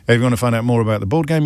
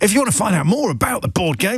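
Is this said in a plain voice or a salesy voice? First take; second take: plain; salesy. First: It is said in his ordinary speaking voice. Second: It is said in a put-on salesman's voice.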